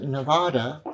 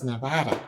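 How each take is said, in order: First: Nevada with a long AH, Ne-VAH-da; British pronunciation. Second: Nevada with a short flat A, Ne-VAD-a; local pronunciation. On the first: Warning English visitors off the wrong version, British pronunciation of Nevada. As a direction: say Nevada the English way, middle vowel as in "father". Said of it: "you pronounce it Nevada, you are wrong". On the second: Correcting English visitors to Nevada, local pronunciation of Nevada. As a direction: say Nevada the local way, middle vowel as in "cat". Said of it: "you are wrong. It's Nevada". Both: Shown as a demonstration.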